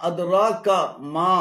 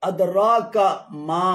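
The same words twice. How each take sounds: Both takes have the same delivery.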